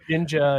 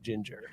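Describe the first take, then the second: First: The final R sound is dropped. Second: The final R sound is pronounced hard. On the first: The speaker calls it right. "we don't go hard R on ginger" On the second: The speaker calls it wrong. "not ginger"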